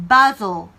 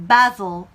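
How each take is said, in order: No difference in how they are said.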